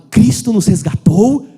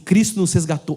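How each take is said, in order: First: It is read with strong, expressive intonation. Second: It is read plainly, without special intonation.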